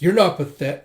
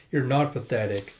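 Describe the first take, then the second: First: Loud, high acted yell, cut short; mistaken shout. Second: Said in the usual way. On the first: Reader voicing the line as if screaming, loud. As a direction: shout the reassurance by mistake, then break off. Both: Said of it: "I was reading the other line of screaming".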